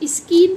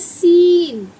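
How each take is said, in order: First: The word begins with an sk sound. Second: The word begins with a plain s sound. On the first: The speaker calls it wrong. "इसे आप स्कीन पढ़ते हैं? नहीं" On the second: The speaker calls it right. "इसे पढ़ा जाता है सीन"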